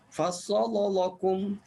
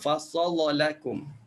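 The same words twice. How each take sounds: First: Both lam sounds are pronounced thick. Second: The lam in lakum is pronounced thin. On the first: The speaker calls it wrong. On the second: The speaker calls it right.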